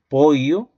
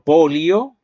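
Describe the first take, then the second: First: The middle consonant is a Y-like sound. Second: The middle consonant is a lateral, L-like sound. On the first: "lo puede pronunciar como una I también" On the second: "Un hablante yeísta con doble L te dirá"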